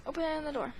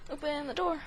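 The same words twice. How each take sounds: The two takes are said the same way.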